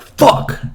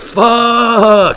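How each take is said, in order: First: It sounds mad and annoyed. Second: It sounds glad, like greeting a friend. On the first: Someone has made the speaker mad. "somebody could make you mad" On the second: Greeting an old friend warmly. "roll up to an old friend and be like"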